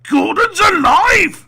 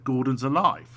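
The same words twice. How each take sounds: First: It is said loudly and dramatically. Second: It is said plainly without drama. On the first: This is how people remember the line. The speaker calls it wrong. "the one line everyone knows" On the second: This is how the line was really delivered. The speaker calls it right. "He actually just said"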